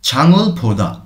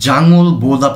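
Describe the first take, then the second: First: The first consonant is aspirated, with a puff of breath. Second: The first consonant is plain, without a puff of breath. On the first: The speaker calls it right. "একটু মহাপ্রাণ করে পড়ব" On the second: The speaker calls it wrong. "এখানে আমরা জাঙল বোদা পড়ছি না"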